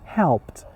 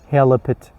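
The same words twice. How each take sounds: First: The final consonants are said together without vowel. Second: An extra vowel splits the final consonants. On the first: The speaker calls it right. "H E L pronounced altogether" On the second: The speaker calls it wrong. "You cannot say helped"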